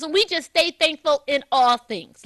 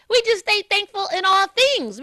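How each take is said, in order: First: Said in the usual way. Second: We just stay thankful in all things, pitched up and pressed; emphatic restatement. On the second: Shown as a demonstration. Host repeating her point to listeners, emphatic. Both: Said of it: "Let me just say that".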